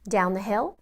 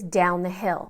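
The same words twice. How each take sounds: First: The pitch rises at the end, like a question. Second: The pitch falls at the end, like an order.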